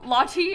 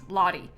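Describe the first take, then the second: First: The middle consonant sounds like a crisp T. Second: The middle consonant sounds like a soft D. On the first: "everybody else says it Lottie" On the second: "it sounds like I'm saying it with D's"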